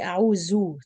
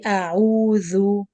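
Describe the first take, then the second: First: The middle consonant sounds like a z. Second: The middle consonant is a th sound. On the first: The speaker calls it wrong. "Don't say zai sound" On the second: The speaker calls it right. "with touching the tip of the teeth"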